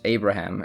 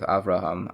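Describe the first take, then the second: First: The middle consonant is a b sound. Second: The middle consonant is a v sound. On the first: This is the common English form of the name. The speaker calls it wrong. "they changed the pronunciations" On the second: This is the original Hebrew form of the name. The speaker calls it right. "instead of"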